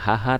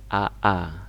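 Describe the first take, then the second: First: The syllable starts with an audible h sound. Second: The syllable starts directly with the vowel. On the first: The speaker calls it wrong. "bacanya bukan haha" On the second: The speaker calls it right. "tapi aa, tetap dibaca aa ya seperti alif"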